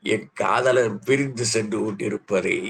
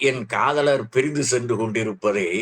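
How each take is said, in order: No difference in how they are said.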